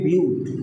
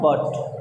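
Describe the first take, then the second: First: The vowel is a long 'yoo' sound. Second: The vowel is a short 'uh' sound. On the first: It names the four-carbon word root in chemistry. The speaker calls it right. "हम लोग कहेंगे ब्यूट" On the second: It is the ordinary English conjunction. The speaker calls it wrong. "Not बट। English में इसको बट बोला जाता है"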